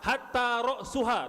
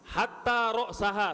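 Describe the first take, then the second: First: The vowel before the final syllable is u. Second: The vowel before the final syllable is a. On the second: "satu fathah juga"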